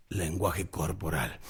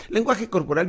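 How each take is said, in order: First: "Lenguaje corporal" slow, lower and soft; slow, weighty title. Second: Said in the usual way. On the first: Shown as a demonstration. Coach announcing the topic "Lenguaje corporal" low and slow.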